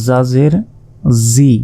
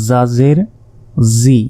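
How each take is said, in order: No difference in how they are said.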